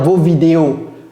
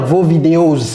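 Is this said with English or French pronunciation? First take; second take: French; English. First: It is pronounced the French way. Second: It is pronounced the English way. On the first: "En français, on va dire" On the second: "mais en anglais, on va dire"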